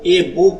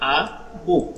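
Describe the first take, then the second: First: The article is pronounced with an 'ay' vowel. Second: The article is pronounced with an 'uh' vowel. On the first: The speaker calls it wrong. "এ বুক না বলে" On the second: The speaker calls it right. "আমরা বলবো আ বুক"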